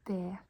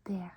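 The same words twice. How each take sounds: First: "Det" with the final T sounded; spelling pronunciation of "Det"; pronounced as written. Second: "Det" with the final T left off; open-ended "Det", no T; silent T. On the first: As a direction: say "Det" ending on an audible T. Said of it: "It's written det". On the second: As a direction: say "Det" as "deh", ending on the vowel. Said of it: "We don't pronounce the T". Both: Shown as a demonstration.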